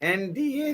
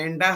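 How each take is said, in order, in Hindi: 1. इसे तीन अलग-अलग अक्षरों में बोला जाता है। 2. इसे दो अक्षरों वाले एक ही शब्द की तरह बोला जाता है। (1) "एनडीए जो लिखा है" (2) "एंडा हम इसको बोलते हैं"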